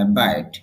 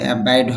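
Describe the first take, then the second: First: The word is said with the marked stress. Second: The word is said without the marked stress. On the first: The speaker calls it right. "Stress symbol আছে এই জন্য বলতে হয় abide" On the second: The speaker calls it wrong. "Abide হবে না"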